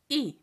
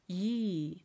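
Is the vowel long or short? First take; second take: short; long. First: The vowel is cut short. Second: The vowel is held long. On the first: It means teeth. "And teeth is short" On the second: It means the number two. "So number two, E is long"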